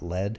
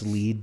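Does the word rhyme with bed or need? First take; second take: bed; need. First: The word rhyme with bed. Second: The word rhyme with need. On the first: It names the metal. The speaker calls it wrong. "not lead" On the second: It names a lead to a gold vein. The speaker calls it right. "It's lead, because it's a gold term"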